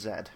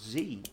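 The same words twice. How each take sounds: First: The letter is said as zed. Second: The letter is said as zee.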